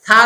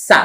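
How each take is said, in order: First: Tongue tip on the teeth for "সা"; THA, not Seen. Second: "সা" with whistling s; sharp hiss on "সা", tongue inside; Seen's SA. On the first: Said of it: "সা আর সিনের পার্থক্য করেন". (পাতলা "সা", জিহ্বা দাঁতের আগায়) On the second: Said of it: "আর সিন জবর হলো". (সিনের শিস দিয়ে "সা") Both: Shown as a demonstration.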